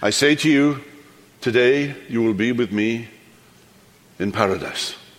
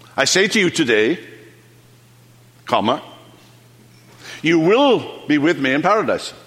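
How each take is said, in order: First: The pause comes before 'today'. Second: The pause comes after 'today'.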